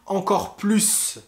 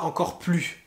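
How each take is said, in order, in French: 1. Le s final de plus se prononce. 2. Le s final de plus est muet. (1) "On dira aussi encore plus" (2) "et pas encore plus"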